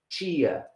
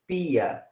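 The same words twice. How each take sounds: First: The word begins with a ch-like sound. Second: The word begins with a plain t sound. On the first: The speaker calls it wrong. "no es" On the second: The speaker calls it right. "es tia"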